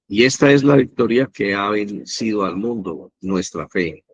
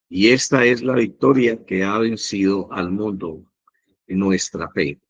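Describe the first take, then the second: First: It is read at a faster pace. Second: It is read at a slower pace.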